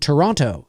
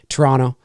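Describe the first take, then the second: First: Every syllable is pronounced fully and clearly. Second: Some syllables are reduced or dropped. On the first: The speaker is from outside the country. "pronounce the whole every syllable" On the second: The speaker is a local. "but here, you know, we just say Toronto"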